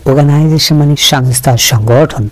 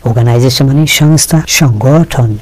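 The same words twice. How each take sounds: No difference in how they are said.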